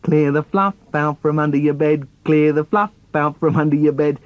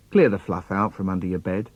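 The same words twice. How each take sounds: First: Self-important chanted order on a level pitch; pompous, monotone bossy brother; puffed-up brother. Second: Lightly voiced mum, low pitch; a hint of a mother instructing; mum's order. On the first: Acted. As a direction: puff yourself up and parrot the order. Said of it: "all puffed up". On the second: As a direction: give a low, matter-of-fact order as mum. Mum's order in acted poem.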